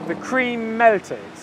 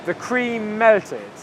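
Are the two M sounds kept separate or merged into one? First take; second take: merged; merged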